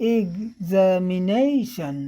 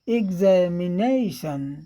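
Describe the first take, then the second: The two takes are said the same way.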